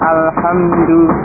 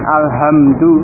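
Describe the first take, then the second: First: The h is a tense, raspy throat sound. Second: The h is a light, plain breathy h. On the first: The speaker calls it right. "tapi Alhamdu" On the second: The speaker calls it wrong. "bukan Alhamdu"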